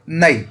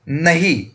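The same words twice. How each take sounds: First: The h sound is dropped, replaced by a catch. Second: The h sound is clearly pronounced. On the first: This is the Khari Boli dialect form. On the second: This is the standard form.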